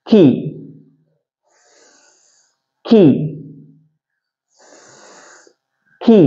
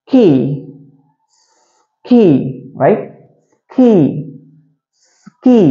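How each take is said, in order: First: Long hissed s, then 'கீ'; separated S. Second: S joined more quickly to 'கீ'; a little faster. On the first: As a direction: draw out the s before each 'கீ'. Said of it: "சேர்த்து வாசிக்கலாமா இப்போ?". ('ஸ்ஸ்' நீட்டி, பிறகு 'கீ') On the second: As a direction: shorten the gap between hissed s and 'கீ'. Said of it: "கொஞ்சம் வேகமா சொல்லுங்க இப்போ". ('ஸ்' உடன் 'கீ' சற்று வேகமாக) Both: Shown as a demonstration.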